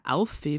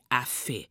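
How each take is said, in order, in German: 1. Es wird in der oberbayerischen Form 'auffe' gesagt. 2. Es wird in der niederbayerischen Form 'affe' gesagt.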